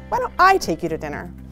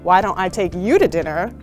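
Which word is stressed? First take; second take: I; you. First: The stress falls on the word I. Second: The stress falls on the word you. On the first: The speaker will take the person instead of another host. "instead of the guy that you were supposed to go to dinner with" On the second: The invitation is for this person rather than someone else. "do they mean that we're going to take somebody else?"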